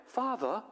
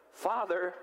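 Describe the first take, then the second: First: High, hammed-up foreign accent on "Father"; a joke accent, pitched well up, on "Father"; mock accented Father. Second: Said in the usual way. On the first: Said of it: "he didn't have that accent". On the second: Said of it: "I'm just kidding, he didn't have that accent".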